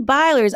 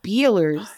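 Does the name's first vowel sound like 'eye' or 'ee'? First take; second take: eye; ee. First: The first vowel sounds like 'eye'. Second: The first vowel sounds like 'ee'. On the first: This is how the other person says it. "You say Beiler's" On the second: This is how the speaker used to say it. "I used to pronounce it Beeler's"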